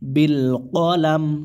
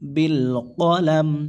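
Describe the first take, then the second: The two takes are said the same way.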